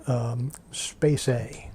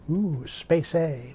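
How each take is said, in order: First: Said in the usual way. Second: Slow, hushed, wide-eyed ooh; intrigued listener voice. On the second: Pretend. Voices a curious listener's reaction.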